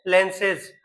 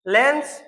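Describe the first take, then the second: First: "लेंसेज" with the extra ez syllable, falling; plural form. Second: "लेंस" short, ending in a plain s with a rise; singular form. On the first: Teacher contrasting plural for students, "लेंसेज" falling. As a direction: add the ez sound clearly in "लेंसेज". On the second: Teacher contrasting singular for students, "लेंस" with a rising end. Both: Shown as a demonstration. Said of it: "आप देखो".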